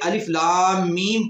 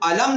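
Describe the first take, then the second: First: Each letter is named separately by its name. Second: The letters are blended into one short word. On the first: The speaker calls it right. "बल्कि अलिफ लाम मीम पढ़ेंगे" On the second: The speaker calls it wrong. "हम अलम नहीं पढ़ेंगे"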